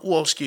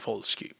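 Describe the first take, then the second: First: The W is sounded like an English W. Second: The W is sounded the Polish way. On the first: The speaker calls it wrong. "So it's not Wolski" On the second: The speaker calls it right. "pronouncing the W properly"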